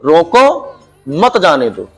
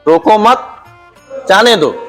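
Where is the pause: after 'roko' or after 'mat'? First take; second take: after roko; after mat. First: The pause comes after the word 'roko'. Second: The pause comes after the word 'mat'. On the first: "इसी वाक्य को दोबारा बुला के बोल दिया" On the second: "एक का अर्थ हो गया कि उसको मत रोको जाने दो।"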